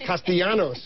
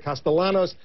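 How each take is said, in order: First: The name is said with a Spanish-style pronunciation. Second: The name is said with an English-style pronunciation. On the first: The speaker calls it right. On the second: The speaker calls it wrong. "a lot of folks like to say"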